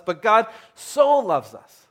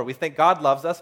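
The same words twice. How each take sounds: First: "so" stretched out, high and loud; stress on SO. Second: Said in the usual way. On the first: Shown as a demonstration. Preacher correcting a glossed-over reading of the verse, emphatic long "so". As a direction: punch and hold the word "so". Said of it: "There's an emphasis in this verse". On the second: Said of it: "sometimes we just gloss over".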